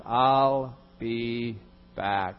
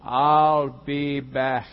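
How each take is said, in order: First: Slow, deadpan movie-robot line; slow mock action-hero threat; Terminator catchphrase. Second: Slow, louder deadpan repeat of the line; hammed-up movie catchphrase, louder; Terminator catchphrase. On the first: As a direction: drag it out like the Terminator. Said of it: "three words". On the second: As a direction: say it again, slower, like an action hero.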